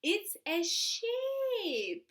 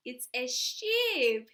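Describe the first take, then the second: First: High, slow "it's a sheep". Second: Said in the usual way. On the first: Shown as a demonstration.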